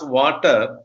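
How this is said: The final r is pronounced, following the spelling. "in India we pronounce it as"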